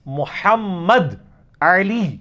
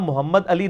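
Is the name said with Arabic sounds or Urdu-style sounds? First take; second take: Arabic; Urdu-style. First: The name is said with full Arabic letter sounds. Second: The name is said with plain Urdu-style sounds. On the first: The speaker calls it right. "मोहम्मद अली ये है" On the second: The speaker calls it wrong. "मेरा नाम मोहम्मद अली नहीं है"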